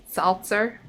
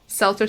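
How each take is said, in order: First: Seltzer with an open "ah", like "SAHL-tser"; Boston pronunciation. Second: Said in the usual way. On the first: Shown as a demonstration. Streamer trying Seltzer as in Boston, "SAHL-tser". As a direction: make Seltzer start like salsa. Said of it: "sounds like salsa in Boston". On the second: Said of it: "Seltzer sounds like salsa in Boston".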